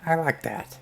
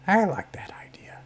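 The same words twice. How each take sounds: First: Said in the usual way. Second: Conspiratorial whisper, higher; a hushed, scheming approval. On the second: Real, not acted. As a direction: whisper it like a co-plotter. GM reacts to sneaky plan.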